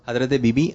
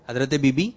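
No difference in how they are said.

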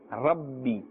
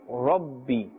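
First: The r is said with a thin mouth. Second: The r is said with a full mouth. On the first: The speaker calls it wrong. "We will not say Rabbi. Rabbi is incorrect" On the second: The speaker calls it right. "pronounced with a full mouth"

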